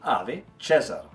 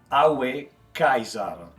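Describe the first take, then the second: First: The first word has a v sound in the middle. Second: The first word has a w sound in the middle. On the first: This is how it came to be said centuries later. "para depois se transformar nos séculos em" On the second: This is how it sounded in the dictator's time. "aos tempos do grande ditador eh, soaria como"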